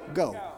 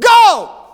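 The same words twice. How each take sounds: First: The word is said firmly, not loud. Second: The word is shouted loudly.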